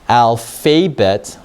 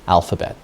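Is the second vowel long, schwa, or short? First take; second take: long; schwa. First: The second syllable has a long vowel sound. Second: The second syllable has a weak schwa sound. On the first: The speaker calls it wrong. "Let me try long vowel in instead. That doesn't make any sense at all" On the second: The speaker calls it right. "This is called a schwa. And a schwa sounds like a short U sound"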